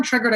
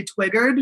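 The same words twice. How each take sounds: First: Said in the usual way. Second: Put-on twiggered with a w for the r, babyish; baby talk. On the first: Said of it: "I say". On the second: Shown as a demonstration. Mocking himself as a baby, twiggered in baby talk. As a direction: say twiggered like a toddler. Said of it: "reminds me that I'm being a baby".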